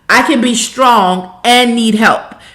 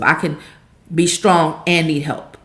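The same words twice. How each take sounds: First: It is said at the loudest volume. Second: It is said at the softest volume.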